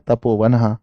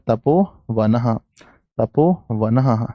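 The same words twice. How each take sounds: First: Said in the usual way. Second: Slow, spelling out तपोवनः as ta-po-va-nah; slow dictation. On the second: Shown as a demonstration. Teacher dictating तपोवनः to students, slowly stretched out. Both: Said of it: "note कीजिएगा".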